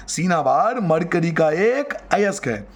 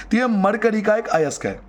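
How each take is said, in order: First: Slow, measured repetition for note-taking; slow dictation. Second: Said in the usual way. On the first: Shown as a demonstration. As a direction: spell it out slowly, word by word. Repeats it slowly for the class.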